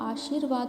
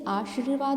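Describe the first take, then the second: First: The r sound is placed right after sh. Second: The r sound is not placed after sh. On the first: The speaker calls it right. "श के बाद में र आएगा" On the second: The speaker calls it wrong. "जैसे आशीर्वाद नहीं होता"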